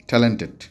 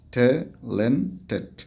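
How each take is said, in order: First: Said in the usual way. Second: "talented" very slowly, a gap between its three syllables. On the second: Shown as a demonstration. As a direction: split "talented" into three separate beats for counting. ("Talented" তিন সিলেবলে আলাদা করে, খুব ধীরে) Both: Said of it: "তিন syllable".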